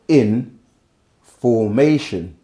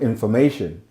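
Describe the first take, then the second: First: It is split with a break after in. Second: It is said smoothly as one word. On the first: Being in a particular order. "if I go in formation, it's different different tones" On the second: Facts are being handed over. "When you say it like that, it, you just hear information"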